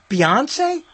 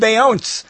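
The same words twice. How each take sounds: First: The final vowel of the name is pronounced. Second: The final vowel of the name is silent. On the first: "Is that how you pronounce that?" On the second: "I was calling her Beyonce. I thought that he was silent"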